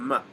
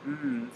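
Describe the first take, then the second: First: An m sound with a short vowel after it. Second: A pure, held m sound with no vowel. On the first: The speaker calls it wrong. "than the m" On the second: The speaker calls it right. "the mm sound fits a lot better"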